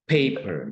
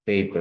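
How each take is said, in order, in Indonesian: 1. p pertama itu ada hembusan napas yang kuat. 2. p pertama itu tidak ada hembusan, hampir bersuara. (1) "kayak yang P dan H gitu. Paper, jadi ada haknya" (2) "paper tanpa ada H gitu ya, itu kan seperti yang bergetar"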